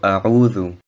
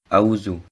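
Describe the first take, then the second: First: The middle consonant is a soft 'th' sound. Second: The middle consonant is a 'z' sound. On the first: The speaker calls it right. "also A'udhu" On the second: The speaker calls it wrong. "nicht Auzu"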